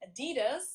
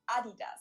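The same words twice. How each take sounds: First: It is said the American way. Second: It is said the German way.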